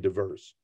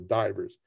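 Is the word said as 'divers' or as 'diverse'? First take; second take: diverse; divers. First: It is pronounced as the word diverse. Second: It is pronounced like the plural of diver. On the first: The speaker calls it right. "but it's really diverse" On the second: The speaker calls it wrong. "I have a tendency to pronounce it as divers"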